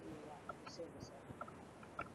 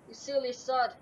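First: Soft, slow "You silly sod."; quiet catchphrase. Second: Raging gamer. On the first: Shown as a demonstration. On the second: Real, not acted. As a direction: shout "You silly sod!" at the game. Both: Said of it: "the silly sod thing I got from".

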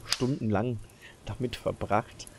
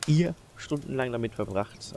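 First: Said in the usual way. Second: "ihr" set off, higher and louder; emphatic "ihr", then falling away; stress on ihr. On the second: Real, not acted. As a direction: punch the word "ihr" in correction. Corrects who spends the hours.

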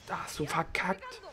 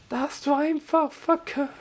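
First: Said in the usual way. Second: High, slow sing-song gloating; teasing mock voice at the defeated enemy; mocking taunt. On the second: Real, not acted. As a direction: taunt the beaten boss, stretched out.

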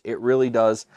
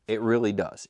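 First: "really" pushed louder; emphatic repeat. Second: Said in the usual way. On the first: Real, not acted. Reviewer insisting on the Fluffernutter taste, louder on "really".

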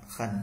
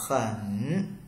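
First: "khẩn" kept low and stopped midway; half third tone. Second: "khẩn" drawn out through its whole dipping tone; full third tone. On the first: Teacher showing the shortened reading, "khẩn" stopped halfway through the dip. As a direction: cut "khẩn" short before it rises. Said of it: "giữa chừng là ta dừng". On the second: Teacher showing the usual reading, "khẩn" in a full dipping third tone. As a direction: let "khẩn" dip low and come back up. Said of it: "Bình thường ví dụ ta đọc là". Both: Shown as a demonstration.

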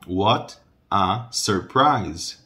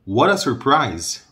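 First: "What a surprise." read very slowly, T clear; slow careful reading. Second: Said in the usual way. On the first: Shown as a demonstration. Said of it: "lê devagar". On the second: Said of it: "Em vez desse T do what, tem quase como se fosse um R".

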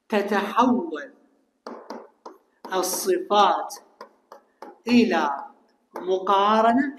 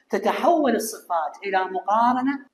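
First: Each word spaced apart and drawn out; slow word-by-word dictation to the class. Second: Said in the usual way. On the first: Shown as a demonstration.

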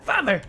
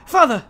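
First: Breaking into laughter on the call; Lancer voice, laughing. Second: Put-on high childish cry of Father; mock Lancer voice. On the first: Acted. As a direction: giggle through the boy's cry. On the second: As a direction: call out as a little boy. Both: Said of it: "I try to do like a".

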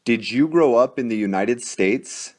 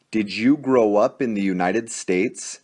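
Both takes have the same delivery.

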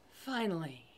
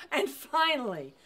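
First: Fading finally. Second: Said in the usual way. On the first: A narrator's reading. Repeated word, growing fainter.

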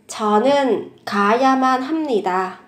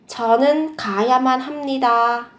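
No difference in how they are said.

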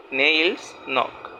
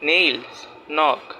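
Both takes have the same delivery.

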